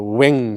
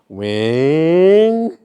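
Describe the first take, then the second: First: The sound peaks early and then fades. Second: The sound rises toward the end.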